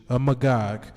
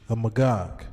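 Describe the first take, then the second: The two takes are said the same way.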